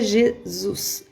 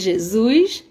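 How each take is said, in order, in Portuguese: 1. É dito sem sotaque carioca. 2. É dito com sotaque carioca. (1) "pra vocês é Jesus" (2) "pra mim é Jesus"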